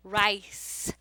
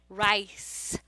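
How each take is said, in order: First: The c is sounded as a soft s. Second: The c is sounded as a soft s.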